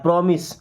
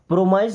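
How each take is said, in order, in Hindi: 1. दूसरा syllable 'miss' के साथ तुक मिलाता है। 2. दूसरा सिलेबल 'size' के साथ तुक मिलाता है। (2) "प्रोमाइज नहीं पढ़ना"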